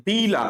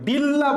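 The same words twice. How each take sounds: First: ডিলা as "dee-la", with a single l; correct pronunciation. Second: ডিল্লা run together as "dil-la"; common misreading. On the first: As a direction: keep ডি separate and clear in ডিলা. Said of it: "তুমি জিনিসটা এভাবে পড়বা". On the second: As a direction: double the l in ডিল্লা, short first vowel. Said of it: "এভাবে অনেকে পড়ে ফেলায়". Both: Shown as a demonstration.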